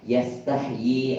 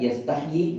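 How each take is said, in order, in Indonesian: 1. Vokalnya diucapkan panjang. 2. Vokalnya diucapkan pendek. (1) "Itu dibacanya panjang ya" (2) "bukan yastahyi, bukan"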